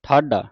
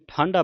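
First: The first vowel is not nasalized. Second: The first vowel is nasalized. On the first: The word means standing. The speaker calls it right. "ਬਿੰਦੀ ਤੋਂ ਰਹਿਤ ਪੜਨਾ ਹੈ" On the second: The word means cold. The speaker calls it wrong. "ਸੰਗਤਾਂ ਨੇ ਕਈ ਇਹਨੂੰ ਠਾਂਡਾ ਪੜ ਜਾਂਦੀਆਂ"

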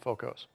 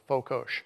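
First: The final consonant sounds like 's'. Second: The final consonant sounds like 'sh'. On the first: The speaker calls it wrong. "rather than" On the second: The speaker calls it right. "Hungarians pronounce the plain S like in sugar"

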